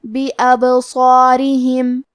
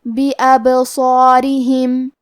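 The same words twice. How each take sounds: First: بِأَبْصَارِهِمْ with the silent ba bounced, slightly slow; bouncing ب in بِأَبْصَارِهِمْ; qalqala demo. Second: بِأَبْصَارِهِمْ with a full, heavy ص and long alif; heavy, full-mouthed ص in بِأَبْصَارِهِمْ; heavy sad demo. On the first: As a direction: shake the ب of بِأَبْصَارِهِمْ with a small echo. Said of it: "با کو ہلاتے ہوئے یہ کلمہ کو پڑھیں گے". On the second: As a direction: darken the ص and its alif in بِأَبْصَارِهِمْ, slightly slow. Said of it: "مد الف کو بھی بھاری آواز میں پڑھیں گے". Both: Shown as a demonstration.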